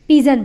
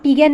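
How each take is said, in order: First: The middle consonant is a 'j' sound. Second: The middle consonant is a hard 'g' sound. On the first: The speaker calls it right. "इसे हम पिजन बोलेंगे" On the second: The speaker calls it wrong. "इसे हम पिगन नहीं बोलेंगे"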